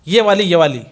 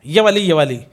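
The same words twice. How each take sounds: The two takes are said the same way.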